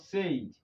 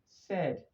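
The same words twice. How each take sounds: First: The vowel is not a short 'eh'. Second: The vowel is a short 'eh'. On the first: The speaker calls it wrong. "This is not said" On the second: The speaker calls it right. "but said"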